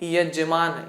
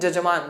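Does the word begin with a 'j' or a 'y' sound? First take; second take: y; j. First: The word begins with a y sound. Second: The word begins with a j sound. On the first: The speaker calls it right. "उनको क्या कहना क्या चाहिए" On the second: The speaker calls it wrong. "वो तो जजमान कह देते हैं ... सरासर गलत है"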